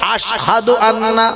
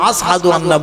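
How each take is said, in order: First: The word has a 'sh' sound before the h. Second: The word has an 's' sound before the h. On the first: "শিনটা উচ্চারণ করতে হুজুর পারতেন না" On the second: "শিন উচ্চারণ করতে পারতেন না, আস আস করতেন"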